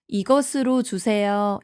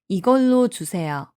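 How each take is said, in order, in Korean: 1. 첫 단어는 원래대로 네 음절로 말해요. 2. 첫 단어는 세 음절로 줄여서 말해요. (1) "이렇게 이야기하지 않고" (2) "이렇게 많이 이야기해요"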